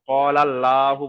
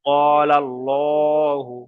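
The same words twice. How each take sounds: First: ক্বালাল্লাহু with an open, light "lla"; mistaken thin L. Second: ক্বালাল্লাহু very slow, with long, rounded "llo"; full heavy L. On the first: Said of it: "বলা যাবে না". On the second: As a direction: stretch ক্বালাল্লাহু, L heavy and dark. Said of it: "অর্থাৎ ল করে পড়তে হবে". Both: Shown as a demonstration.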